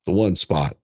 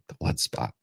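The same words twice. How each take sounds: First: Emphatic. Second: Whispered repeat, unvoiced. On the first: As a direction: announce it with a punch. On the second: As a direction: breathe it out as an aside. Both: Shown as a demonstration.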